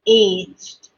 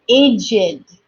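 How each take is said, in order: First: The -ed ending adds no syllable. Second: The -ed ending is its own syllable. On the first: The speaker calls it wrong. "The pronunciation is not" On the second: The speaker calls it right. "these exceptions, the sound of the words at the ending is different"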